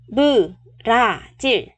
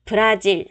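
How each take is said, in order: First: "Brazil" broken into beu-ra-jil; syllable by syllable. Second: Said in the usual way. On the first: Shown as a demonstration. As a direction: separate each beat of "Brazil" for learners. Teacher splits word into syllables.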